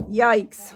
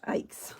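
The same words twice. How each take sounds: First: A much louder startled yelp; loud yikes. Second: Said in the usual way. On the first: Real, not acted. Crafter startled by the stamp, yelping loudly. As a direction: blurt it out, jolted.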